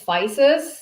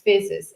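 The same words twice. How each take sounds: First: It is said with the Americanized pronunciation. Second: It is said with the original Greek pronunciation. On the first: This is how the name gets changed in America. "Americans like to pronounce Physis" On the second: This is the name's original form. "The original name is Physis"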